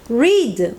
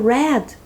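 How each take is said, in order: First: It does not sound like the word red. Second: It sounds like the word red. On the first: It is the present form of the verb. "o verbo ler" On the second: It is the past form of the verb. "parece a palavra vermelho"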